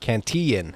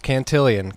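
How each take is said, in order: First: The name ends with a short 'lun' sound. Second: The name ends with an extra 'lee-un' sound. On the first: The speaker calls it right. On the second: The speaker calls it wrong. "not Cantillion"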